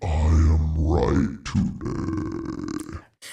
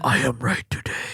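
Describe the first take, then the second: First: It is said in a changed voice. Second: It is said in her normal voice.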